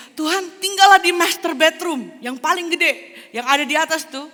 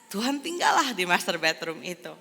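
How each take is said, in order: First: Very high and loud, showing off the biggest room; John's proud offer. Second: Said in the usual way. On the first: Acted. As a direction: say "tinggallah" grandly, like a host handing over the best room. John offers master bedroom. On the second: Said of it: "narrated after quoted offer".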